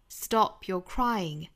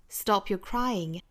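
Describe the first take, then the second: Both takes have the same delivery.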